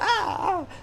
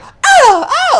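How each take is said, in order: First: It is said quietly. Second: It is said loudly.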